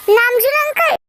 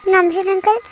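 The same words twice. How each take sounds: First: Raised, higher attention-getting call; insistent calling out. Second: Said in the usual way. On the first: Acted. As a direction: call him out of his thoughts. Second call to get attention.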